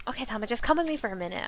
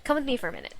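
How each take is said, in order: First: Rushed, stress wrongly on "with"; a misread take that hits "with", not "Come"; bad inflection. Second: Calm corrected read, "Come" first and prominent; corrected inflection. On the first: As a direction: hurry through it, leaning on "with" by mistake. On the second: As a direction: stress on "Come", falling tune at the end. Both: Shown as a demonstration. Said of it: "bad inflection".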